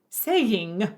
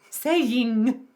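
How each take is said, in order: First: The word ends with a clear, full ng sound. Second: The word ends with a clear, full ng sound.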